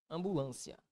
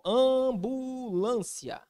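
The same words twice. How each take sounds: First: Said in the usual way. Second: AMBULÂNCIA stretched long, high and sustained; drawn-out word. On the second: Shown as a demonstration. Teacher giving another example, ambulância very slowly drawn out. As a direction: draw out "ambulância" syllable by syllable, pitched high.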